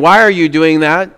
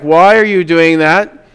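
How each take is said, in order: First: It sounds calm and not shocked. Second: It sounds shocked.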